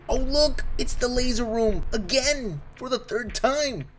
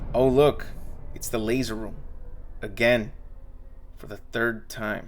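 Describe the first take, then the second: First: The voice sounds eager and excited. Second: The voice sounds weary and bored. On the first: The audience is thrilled to see it. "probably hoping that everyone will point at the screen and say" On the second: The audience is tired of seeing it. "but the tone was more like"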